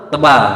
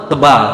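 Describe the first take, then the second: Both takes have the same delivery.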